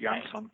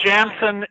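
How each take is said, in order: First: The name begins with a Y sound. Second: The name begins with a J sound. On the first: This is the form used in Europe. "In Europe, ... they pronounce it differently. ... with a Y" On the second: This is the form used in America. "it's Jansen in America"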